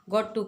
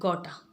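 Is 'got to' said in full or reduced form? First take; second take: full; reduced. First: Both words are said in full, separately. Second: The words blend into one short word.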